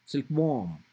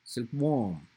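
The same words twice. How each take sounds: First: "Silkworm" with worm stressed, silk light. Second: "silkworm" with silk stressed, worm unstressed. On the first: Teacher contrasting phrase and compound stress, worm stressed. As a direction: lean on worm. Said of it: "silk will not be stressed, worm will be stressed". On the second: Teacher contrasting phrase and compound stress, silk stressed. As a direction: punch silk first. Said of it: "silk will be stressed". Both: Shown as a demonstration.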